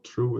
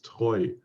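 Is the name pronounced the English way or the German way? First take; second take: English; German. First: The vowel sounds like English 'true'. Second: The vowel sounds like German 'oy'. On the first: The speaker calls it wrong. "it's not true" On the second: The speaker calls it right. "it's Treu"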